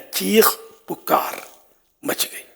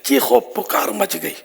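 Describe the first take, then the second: First: No 'o' sound links the first two words. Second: An 'o' sound links the first two words. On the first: The speaker calls it right. "वाव नहीं आएगा" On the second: The speaker calls it wrong. "जैसे हम बोलते हैं ... अहले लुगत के नजदीक गलत है"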